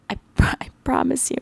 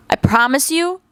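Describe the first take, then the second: First: A hushed, confiding whisper; whispered promise. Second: Said in the usual way. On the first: Real, not acted. Repeated promise, now whispered.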